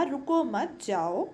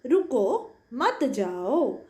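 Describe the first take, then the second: First: "रुको मत, जाओ" in an even, run-on reading; unpunctuated reading. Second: Slow "रुको मत, जाओ" with a clear stop right after रुको; "रुको मत, जाओ" read deliberately, comma pause after रुको; punctuated pause. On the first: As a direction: run "रुको मत, जाओ" on as one phrase, no stop after रुको. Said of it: "कोई भी विराम चिन्ह नहीं". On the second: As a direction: halt after रुको, then join मत to जाओ. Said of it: "दूसरे अनुच्छेद में हमने विराम चिन्हों का प्रयोग किया". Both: Shown as a demonstration.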